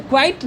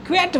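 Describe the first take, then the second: First: क्वाइट with an "ai" vowel, "kvait"; wrong pronunciation. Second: क्वैट with an open e, "kvet"; correct pronunciation. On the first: Teacher warns students off this reading, wrong pronunciation. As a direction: misread it as क्वाइट, rhyming with "kite". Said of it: "नहीं बोलेंगे". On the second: Teacher corrects the rejected reading, correct pronunciation. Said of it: "क्वैट बोलेंगे". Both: Shown as a demonstration.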